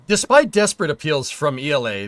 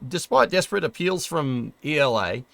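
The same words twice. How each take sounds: First: It is read in the speaker's usual accent. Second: It is read in an Australian accent.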